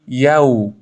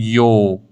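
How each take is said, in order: First: یو with a clear open a; correct "yaw". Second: یو rounded into a long o; closed o in یو; wrong "yo". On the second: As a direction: say یو as "yoo", like "yo". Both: Shown as a demonstration. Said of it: "نخونید یو".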